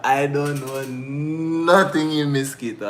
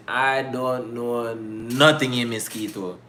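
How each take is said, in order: First: Said through giggles, slow; laughing. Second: Drawn-out plain statement; slow and plain. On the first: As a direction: hold back laughter while saying it. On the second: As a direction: say it slowly, matter-of-fact. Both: Real, not acted.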